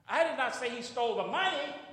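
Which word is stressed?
money. The stress is on the word money.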